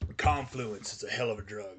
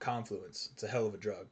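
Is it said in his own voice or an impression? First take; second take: own voice; impression. First: It is said in his normal voice. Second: It is said imitating a famous person's voice.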